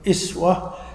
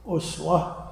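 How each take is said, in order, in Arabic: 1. تبدأ الكلمة بحركة 'i'. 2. تبدأ الكلمة بحركة 'u'. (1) "والكسر ... هذه لغة الحجاز" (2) "بالضم ... هذه لغة بني تميم"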